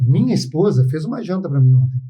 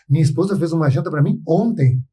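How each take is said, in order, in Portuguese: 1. As palavras "para mim" recebem ênfase. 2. A palavra "ontem" recebe ênfase. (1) "para mim é importante que a minha esposa fez aquela janta para mim" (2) "Pô, ontem é importante"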